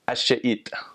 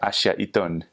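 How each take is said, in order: First: It is said with a hard, clipped edge. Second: It is said softly, with the full ending. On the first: This is how it is said in another area. "with the hard edge in your voice" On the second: This is how it is said in one area. "it's more soft"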